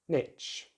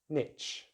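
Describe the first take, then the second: First: The vowel is short, like in 'it'. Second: The same.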